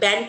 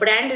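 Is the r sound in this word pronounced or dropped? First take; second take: dropped; pronounced. First: The word is said without an r sound. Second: The word is said with an r sound. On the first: The speaker calls it wrong. "ব্যান্ড promotion" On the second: The speaker calls it right. "ব্র্যান্ড নয়"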